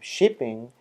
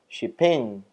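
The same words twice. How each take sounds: First: The stress is on the first syllable. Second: The stress is on the second syllable. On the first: "instead of shipping" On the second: "If we change the stress"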